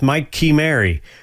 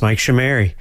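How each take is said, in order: First: The surname does not begin with a 'sh' sound. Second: The surname begins with a 'sh' sound. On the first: This is the family's original form of the name. "Or at least it would be if my Italian ancestors didn't give in" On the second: This is the form the name took after others said it this way. "people whom pronounced it Shimeri. So now it's Mike Shimeri"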